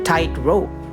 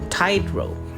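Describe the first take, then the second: First: The stress is on the second syllable. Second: The stress is on the first syllable. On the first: A rope drawn taut. "put the primary stress on the second syllable" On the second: A rope for acrobats. "this primary stress is on the first syllable"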